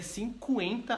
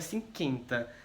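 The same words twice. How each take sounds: First: The u after the q is sounded. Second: The u after the q is silent. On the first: The speaker calls it right. "aqui é cinquenta a pronúncia" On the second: The speaker calls it wrong. "não é cinquenta"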